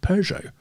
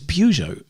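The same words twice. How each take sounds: First: The name is pronounced the posher British way. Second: The name is pronounced the way Irish speakers say it. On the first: "Over here, it's Peugeot. So it's much posher over here" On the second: "In Ireland, it's Peugeot"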